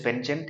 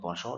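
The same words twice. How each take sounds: First: It is pronounced the American English way. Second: It is pronounced the European English way. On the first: "in American English it is penchant" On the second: "In European English you pronounce it penchant"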